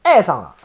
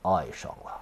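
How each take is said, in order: First: It is said with a Shanghai accent. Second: It is said with a standard Mandarin accent.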